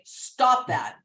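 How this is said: The voice falls at the end.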